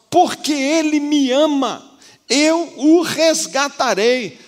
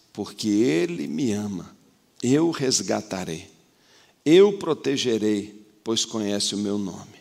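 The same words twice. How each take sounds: First: Much higher, louder, slow proclamation of God's promise; voice of God preached. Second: Changed tone. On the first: Preacher voicing the Lord to the church, proclaimed high and loud. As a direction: proclaim it as God rescuing, slowly. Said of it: "O Senhor tá dizendo pra nós". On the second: God answering the believer, in a lowered tender voice. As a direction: speak it gently as God answering. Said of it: "Agora muda o tom, muda o tom". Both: Acted.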